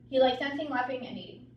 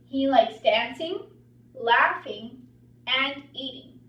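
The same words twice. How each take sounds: First: It is run together with no pauses. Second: It has pauses between the listed words.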